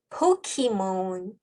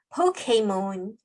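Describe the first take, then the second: First: The middle syllable has an ee vowel. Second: The middle syllable has an ay vowel. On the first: "포키몬이라고도 하고요" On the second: "포케몬이라고도 발음을 하더라고요. 근데 가장 정확하다라고 짚어주시는 발음을 보니까 포케몬, A 발음을 넣어주시면 됩니다"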